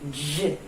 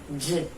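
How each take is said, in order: First: The d is released with a 'zh' sound. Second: The d is released with a 'zh' sound.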